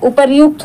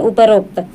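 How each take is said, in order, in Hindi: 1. बीच का हिस्सा 'ryu' है। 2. बीच का हिस्सा 'ro' है। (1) "उपर्युक्त होता है" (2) "तो उपरोक्त गलत होता है"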